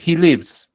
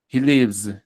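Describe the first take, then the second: First: Said in the usual way. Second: "lives" with a voiced, buzzing z at the end; final S as Z. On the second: Shown as a demonstration. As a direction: let the end of "lives" buzz as z. ("lives" con la S final sonora, como Z) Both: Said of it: "Esta S sí suena como Z".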